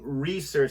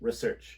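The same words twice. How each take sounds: First: The vowel after the r is clearly pronounced. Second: The vowel after the r is dropped.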